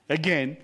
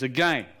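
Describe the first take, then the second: First: Laughing in disbelief, pitched up; the commander can't believe his ears and chuckles; incredulous laughing echo. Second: Said in the usual way. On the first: Retold or imitated. Commander laughing in disbelief at the prisoner's request.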